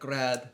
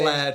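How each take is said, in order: First: The word begins with an R-like sound. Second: The word begins with a clear L sound. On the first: The speaker calls it wrong. "he also say like a bit like grad" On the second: The speaker calls it right. "words like"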